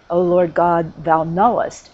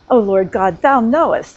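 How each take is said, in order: First: It is said in a plain, neutral tone. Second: It is said in a defiant, challenging tone.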